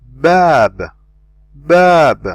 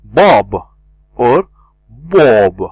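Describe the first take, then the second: First: Bab with a light a vowel; correct light bab. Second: Bob with a rounded o vowel; wrong heavy bob. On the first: Teacher giving learners the correct bab. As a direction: say bab light, tongue resting. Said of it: "I say". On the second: Teacher showing learners the wrong heavy bob. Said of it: "I don't say as well". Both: Shown as a demonstration.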